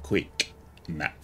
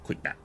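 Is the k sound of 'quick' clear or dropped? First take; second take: clear; dropped. First: The k sound in quick is clearly pronounced. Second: The k sound in quick is dropped. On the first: The voice command is recognized. The speaker calls it right. "I've gotten into the habit of saying quick map" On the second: The voice command is not recognized. The speaker calls it wrong. "if I'm rushing, I don't pronounce the K in quick"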